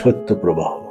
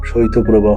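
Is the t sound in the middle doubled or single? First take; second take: doubled; single. First: The t sound is held long, doubled. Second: The t sound is short and single. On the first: The speaker calls it right. "এটি হবে" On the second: The speaker calls it wrong. "শৈত্যপ্রবাহ নয়"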